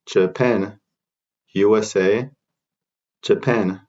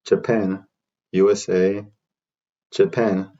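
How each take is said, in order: Both takes have the same delivery.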